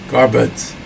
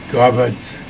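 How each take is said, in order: First: The word ends with a 'dz' sound. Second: The same.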